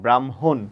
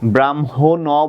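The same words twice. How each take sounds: First: The word ends on the consonant, no vowel. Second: The word ends with a final vowel sound. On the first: The speaker calls it right. "এখানে অ এর উচ্চারণ হচ্ছে না" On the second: The speaker calls it wrong. "ব্রাহ্মণ বলি না"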